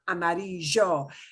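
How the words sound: The ll has a strong Buenos Aires sound. The speaker calls it wrong. "but not amarillo"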